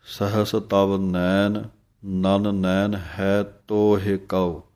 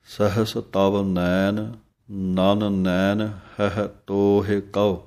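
First: ਹੈ said with the open ai of dulavan; slowly recite, drawing out ਹੈ; slow careful recitation. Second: ਹਹ said short, with sihari not dulavan; slow careful recitation. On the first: Teacher showing the second Aarti reading, slow and careful. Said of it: "ਹਾਹੇ ਦਲਾਈਆਂ ਪਾਠ ਪੜ੍ਹਦੇ ਹੋ". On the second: Teacher showing the first Aarti reading, slow and careful. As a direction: slowly recite ਤੋਹਿ with a light i vowel. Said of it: "ਹਾਹਾ ਹਾਹੇ ਸਿਹਾਰੀ ਹੈ". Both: Shown as a demonstration.

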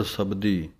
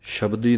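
First: ਸਬਦੀ with a plain s, not sh; correct pronunciation. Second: ਸ਼ਬਦੀ with a sh sound; ਸ਼ਬਦੀ pronounced shabdi; wrong pronunciation. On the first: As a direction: say ਸਬਦੀ with a clean s sound. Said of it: "ਸ਼ਬਦੀ ਨਹੀਂ ਕਹਿਣਾ, ਸਬਦੀ ਪਾਠ ਹੈ". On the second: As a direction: say ਸ਼ਬਦੀ with sh, the mistake. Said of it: "ਸ਼ਬਦੀ ਨਹੀਂ ਕਹਿਣਾ". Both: Shown as a demonstration.

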